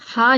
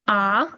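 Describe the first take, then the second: First: It starts with an audible h breath sound. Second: It starts directly on the vowel, no h. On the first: The speaker calls it wrong. "हा नहीं है" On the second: The speaker calls it right. "ये है आ"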